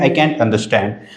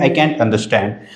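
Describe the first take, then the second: First: Can't has a front 'a' vowel, as in cat. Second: Can't has a front 'a' vowel, as in cat.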